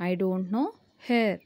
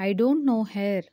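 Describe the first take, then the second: First: "I don't know" rising, pause, then "her."; teacher chunking the sentence for learners; split in two chunks. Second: Said in the usual way. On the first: Shown as a demonstration. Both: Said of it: "దీన్ని ఇంగ్లీష్లో ఏమనాలి?".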